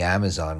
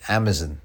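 First: It is said in an American accent. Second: It is said in a British accent. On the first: "the Amazon one" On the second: "as the Brits say"

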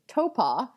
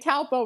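First: The name is said the local way. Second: The name is said the American way. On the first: The speaker calls it right. "the correct pronunciation is Topa" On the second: The speaker calls it wrong. "that's how your Americanness wants to be like coming out"

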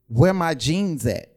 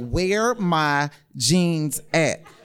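First: It is said at a normal, quick pace. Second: It is said slowly and deliberately.

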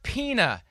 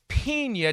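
First: The word is said in an English way. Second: The word is said in a Spanish way. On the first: The speaker calls it wrong. "it's not Pina" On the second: The speaker calls it right. "it's Pina"

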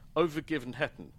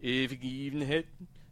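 First: The name is said with English-style pronunciation. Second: The name is said with Swedish-style pronunciation. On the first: The speaker calls it wrong. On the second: The speaker calls it right.

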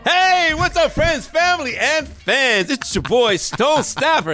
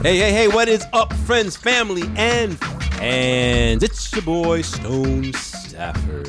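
First: It is said with lively, high energy. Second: It is said with low, sluggish energy.

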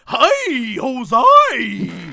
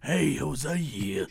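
First: The voice sounds normal and friendly. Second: The voice sounds creepy and sinister.

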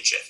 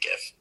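First: The word begins with a soft G sound. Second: The word begins with a hard G sound. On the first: "I don't say GIF" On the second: "I say GIF. ... It's the opposite of that"

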